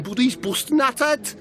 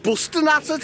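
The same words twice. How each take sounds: First: "busting at it" in a higher Scouse lilt, rising at the end; Scouse phrase. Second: "Busting at it" repeated much higher, hammed-up Scouse; Scouse mimicry. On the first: Acted. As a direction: toss off "busting at it" Scouse-style with a rise. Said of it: "He went scouse". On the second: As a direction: quote Jamie's "Busting at it" with an exaggerated Scouse lift. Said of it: "that's how he said it".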